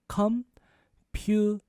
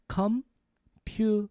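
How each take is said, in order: Both takes have the same delivery.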